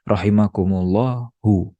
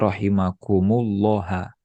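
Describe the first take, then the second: First: The word ends in a u vowel. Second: The word ends in an a vowel. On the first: The speaker calls it right. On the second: The speaker calls it wrong. "Tidak boleh"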